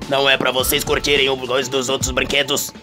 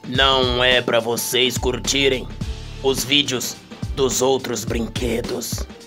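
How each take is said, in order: First: The sentence is said at a fast pace. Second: The sentence is said at a slow pace.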